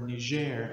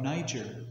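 First: Niger said the French way, nee-ZHAIR; French pronunciation. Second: Said in the usual way. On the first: Shown as a demonstration. Preacher giving listeners the country's local name, Niger in French pronunciation. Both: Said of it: "as we say it in the French pronunciation".

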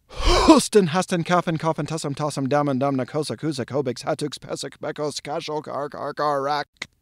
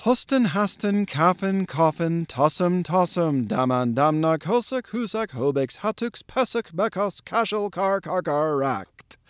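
First: Huffed, then rapid-fire. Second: All in one breath. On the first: Performing for live audiences, huffed start then as fast as possible. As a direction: huff out the first word, race through the rest on that breath. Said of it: "huff out that first H ... as fast as I can". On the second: Lecturer presenting thunder word number nine, all in one breath. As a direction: recite the whole chain evenly without stopping for air. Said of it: "get it all out in one breath". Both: Shown as a demonstration.

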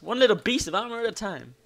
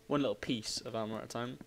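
First: Higher, lilting delivery; playful lilt. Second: Said in the usual way. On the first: Pretend. Player celebrating gradual armour progress, playful lilt. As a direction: lift "little piece" in a playful lilt. Playful take, then low repeat.

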